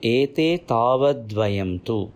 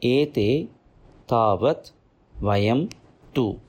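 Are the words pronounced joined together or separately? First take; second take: joined; separately. First: The words are merged together in one flow. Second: The words are said separately, not merged. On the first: "When it joins" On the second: "It is split in this manner"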